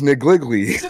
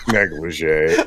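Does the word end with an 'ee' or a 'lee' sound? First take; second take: lee; ee. First: The word ends with a 'lee' sound. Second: The word ends with an 'ee' sound. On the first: The speaker calls it wrong. "that's not how I was gonna pronounce it" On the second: The speaker calls it right. "It's negligee, and I'm stupid"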